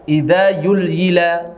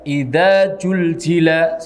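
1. Bunyi z diganti dengan bunyi y. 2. Bunyi z diganti dengan bunyi j. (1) "huruf zain itu diganti dengan huruf ya. Idza yulhila salah" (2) "jangan sampai zain dibaca ja. Idza zulzila salah"

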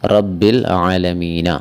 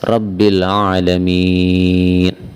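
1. ഈ വാക്യം സ്വരാക്ഷര ശബ്ദത്തിലാണ് അവസാനിക്കുന്നത്. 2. ഈ വാക്യം വ്യഞ്ജന ശബ്ദത്തിലാണ് അവസാനിക്കുന്നത്.

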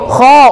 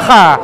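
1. Nama huruf itu berakhir dengan vokal 'o'. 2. Nama huruf itu berakhir dengan vokal 'a'. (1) "Kho adalah vokal O" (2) "A salah"

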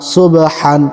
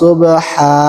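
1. শব্দটি n ধ্বনি দিয়ে শেষ হয়। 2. শব্দটি একটি দীর্ঘ a স্বরধ্বনি দিয়ে শেষ হয়। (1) "হালিপ দুই জবর হান" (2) "ওয়াকফ করলে"

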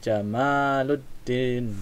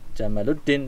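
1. Vokal setelah 'm' itu panjang. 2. Vokal setelah 'm' itu pendek. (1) "Emaknya panjang" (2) "jangan Jamaluddin nanti unta"

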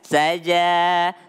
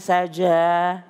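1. Vokal terakhir diucapkan dengan bibir tidak membulat. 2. Vokal terakhir diucapkan dengan bibir membulat. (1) "ja itu enggak memonyongkan bibir ya" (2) "jangan saja"

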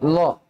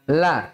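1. L-nya tebal, dan vokalnya seperti o. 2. L-nya tipis, dan vokalnya seperti a. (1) "Jangan sampai berubah menjadi lo ya"

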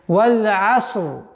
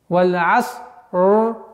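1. Части соединяются в одно неразрывное целое. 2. Части произносятся отдельно, с паузой. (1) "Нужно соединить все в одно единое" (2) "тоже ошибка. Нужно соединить все в одно единое"

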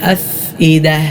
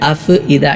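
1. “f” പ്രതിധ്വനിയില്ലാതെയാണ് പറയുന്നത്. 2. “f” പ്രതിധ്വനിയോടെയാണ് പറയുന്നത്. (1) "അങ്ങനെ ഖൽഖല കൊടുക്കേണ്ടതില്ല" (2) "പലരും ഖൽഖല കൊടുത്തുകൊണ്ട് ഓതും... എന്നല്ല"

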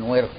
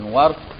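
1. الحركة الأولى هي الكسرة، ثم لا حركة بعدها. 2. الحركة الأولى هي الفتحة، ثم لا حركة بعدها.

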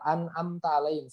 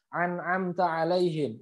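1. Setiap vokal diawali hamzah biasa. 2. Setiap vokal diawali bunyi ain yang berat. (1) "tidak bisa dibaca lempeng a semua" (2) "dipukul rata ain semua"

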